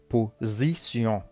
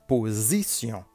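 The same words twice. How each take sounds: Both takes have the same delivery.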